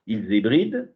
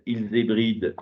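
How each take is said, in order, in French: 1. Elle est lue d'une manière plate et neutre. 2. Elle est lue d'une manière plate et neutre.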